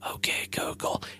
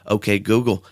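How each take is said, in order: First: It is said in a whisper. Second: It is said in a normal voice.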